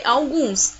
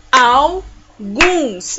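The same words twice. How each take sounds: First: Said in the usual way. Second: AL, pause, GUNS, loud; syllable by syllable. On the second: Shown as a demonstration. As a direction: split ALGUNS into two strong beats. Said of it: "Eu dei duas palminhas".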